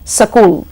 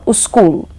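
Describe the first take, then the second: First: A vowel is inserted between s and k. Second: A u vowel comes before the s. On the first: "or sakul" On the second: "or uskul"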